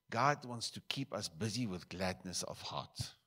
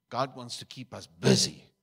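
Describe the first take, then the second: First: Said in the usual way. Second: Much louder, punching God; emphatic repeat. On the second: Real, not acted. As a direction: preach the repeat with full force.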